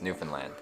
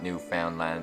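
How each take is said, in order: First: The middle syllable sounds like 'fun'. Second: The middle syllable sounds like 'found'. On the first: The speaker calls it right. "it's Newfoundland" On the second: The speaker calls it wrong. "is not Newfoundland"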